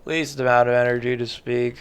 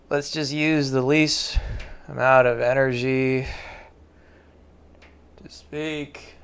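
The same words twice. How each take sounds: First: Low, fast and lifeless, a deliberate demo; flat low drone, words barely pushed out; least-energy voice. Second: Said in the usual way. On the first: Shown as a demonstration. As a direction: show how little energy you can speak with. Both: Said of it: "That's what this sounds like".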